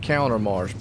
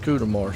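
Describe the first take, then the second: First: The first syllable sounds like 'count'. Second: The first syllable sounds like 'coot'. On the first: The speaker calls it wrong. "I've been saying Countermarsh" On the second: The speaker calls it right. "but it's Cootermarsh"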